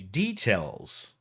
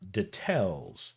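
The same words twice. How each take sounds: First: It uses the speaker's own everyday pronunciation. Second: It copies the ad announcer's older pronunciation. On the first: This is how people say it today. "Normally I would say details" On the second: This is how the old ad said it. "not details"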